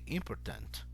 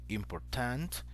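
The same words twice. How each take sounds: First: The stress falls on the middle syllable. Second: The stress falls near the end of the word. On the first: The speaker calls it right. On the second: The speaker calls it wrong.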